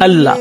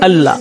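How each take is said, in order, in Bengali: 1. যুক্ত L টি হালকা ও পাতলাভাবে উচ্চারিত হয়। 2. যুক্ত L টি হালকা ও পাতলাভাবে উচ্চারিত হয়।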